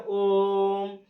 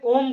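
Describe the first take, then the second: First: ओम held very long on one level note; prolonged vowel. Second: Said in the usual way. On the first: Shown as a demonstration. Teacher showing triple-length vowel, ओम sustained. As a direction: keep ओम going, long and steady. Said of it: "बोलते रहते हो". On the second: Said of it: "जैसे ओम बोलते हैं".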